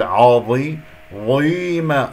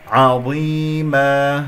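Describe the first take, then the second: First: عظي- with a dark, rounded ayn; faulty, over-heavy عظيمة; wrong heavy ayn. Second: عظيمة slow with light ayn and held ending; slow, clean recited عظيمة; correct pronunciation. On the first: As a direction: thicken ayn and ya in عظي-، ظيمة. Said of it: "فلا أفخم العين". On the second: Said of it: "أقف على مد العوض". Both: Shown as a demonstration.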